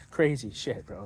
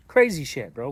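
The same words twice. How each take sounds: First: Slow, soft, laughing disbelief; amused laugh. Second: Loud exclamation. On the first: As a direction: chuckle it out quietly, slowly. Laughing over his own wild story. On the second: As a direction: burst it out, amazed at himself. Exclaims at his own turnaround. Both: Real, not acted.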